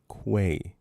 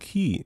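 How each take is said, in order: First: The word begins with a KW sound. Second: The word begins with a plain K sound. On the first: The speaker calls it right. "with a Q. Quay" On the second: The speaker calls it wrong. "Who says key?"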